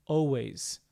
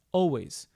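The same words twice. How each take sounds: The two takes are said the same way.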